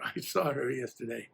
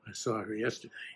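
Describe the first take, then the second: First: It is said in an admiring, appreciative tone. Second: It is said in a suspicious, insinuating tone. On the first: She is a wonderful woman. "and what a great chick she" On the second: She was doing something wrong. "implying that she was up to no good"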